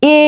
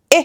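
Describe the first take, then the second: First: এ stretched into a long "ay"; long wrong vowel. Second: এ as a brief "eh"; short vowel. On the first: Teacher warning students off it, এ dragged long. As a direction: hold এ out long. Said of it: "এ না". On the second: Teacher giving the sound of E, এ said short. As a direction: cut এ off quickly, a short "eh". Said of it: "একদম short হবে". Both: Shown as a demonstration.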